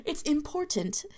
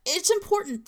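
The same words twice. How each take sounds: First: IMPORTANT with a crisp second T; sounded middle T. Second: IMPORTANT with the second T swallowed; dropped middle T. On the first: Contrasting accents, middle T fully pronounced. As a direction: release the T clearly in "important". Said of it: "it would be a different accent". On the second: Contrasting accents, New Jersey dropped middle T. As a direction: say "impor'nt", T left unreleased. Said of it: "we don't pronounce T's in the middles". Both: Shown as a demonstration.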